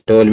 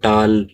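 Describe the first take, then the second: First: The vowel is a rounded 'aw' sound. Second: The vowel is an open unrounded 'aa' sound. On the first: The speaker calls it right. "ये होता है टोल" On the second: The speaker calls it wrong. "हम बोल देते हैं जैसे कि टाल"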